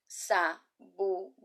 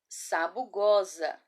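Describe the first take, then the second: First: Sabugosa in four slow, separate syllables. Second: Sabugosa joined up, slow and drawn out; read as whole word. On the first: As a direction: break Sabugosa into sa, bu, go, sa. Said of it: "Eu vou soletrar em seguida". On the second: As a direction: read Sabugosa slowly without breaks between syllables. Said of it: "Agora vamos ler?". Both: Shown as a demonstration.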